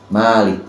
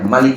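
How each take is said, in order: First: The vowel after the m is long. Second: The vowel after the m is short. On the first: It means owner. "mimnya panjang pemilik" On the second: It means king. "kalau dibaca Malik raja"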